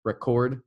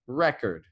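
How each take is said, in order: First: Record stressed on the first syllable, REcord, with a full vowel; noun stress. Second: Record stressed on the second syllable, reCORD, with a weak first vowel; verb stress. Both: Shown as a demonstration. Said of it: "spelled the same but sound differently".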